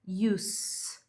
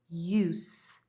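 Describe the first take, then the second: First: The word ends with a hissing S sound. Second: The same.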